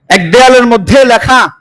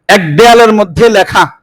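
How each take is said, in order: No difference in how they are said.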